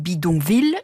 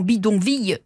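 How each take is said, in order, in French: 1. Le double L se prononce comme un L simple. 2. Le double L se prononce comme un son Y. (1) "on dit bidonville" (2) "qui se prononceraient logiquement"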